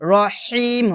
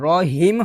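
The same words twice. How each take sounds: First: The h is squeezed out from mid-throat. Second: The h is a plain, light breath. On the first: The speaker calls it right. "হলকের মাঝখান থেকে চাপ দিয়ে বের করতে হবে" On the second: The speaker calls it wrong. "রহিম হবে না"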